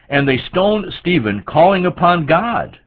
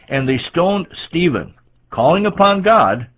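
First: It runs on with no pause before 'calling'. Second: There is a clear pause before 'calling'. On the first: The people stoning him were calling upon God. The speaker calls it wrong. "Is that what that says? No" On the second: The man being stoned was calling upon God. The speaker calls it right. "That was Stephen calling upon God, not they who are stoning him"

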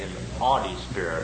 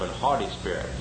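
First: The H at the start of haughty is silent. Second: The H at the start of haughty is pronounced. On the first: "people wouldn't even pronounce the H. They'd say" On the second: "instead of"

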